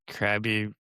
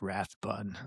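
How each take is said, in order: First: The first syllable does not sound like 'wrath'. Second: The first syllable sounds like the word 'wrath'. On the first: The speaker calls it right. "but it's Krabby" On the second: The speaker calls it wrong. "I want to pronounce it like Wrath, like Wrath Bun, like I'm angry"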